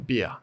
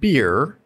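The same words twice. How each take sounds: First: The R sound in beer is dropped. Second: The R sound in beer is pronounced.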